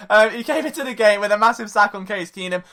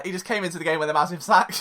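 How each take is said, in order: First: Said in the usual way. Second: Quick throwaway deadpan line; deadpan punchline. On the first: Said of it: "That's not the point". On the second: Shown as a demonstration. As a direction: toss it off fast, straight-faced. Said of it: "I should just end it there".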